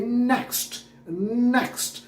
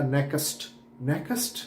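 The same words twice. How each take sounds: First: नेक्स्ट higher, one clean syllable; one-syllable next. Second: नेक्स्ट split as nek-ast; mock nekast mispronunciation; wrong two-syllable next. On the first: Shown as a demonstration. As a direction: say नेक्स्ट as a single tight beat. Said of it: "ये नेक्स्ट". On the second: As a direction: imitate students adding a vowel in नेक्स्ट. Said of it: "उन्होंने कहा".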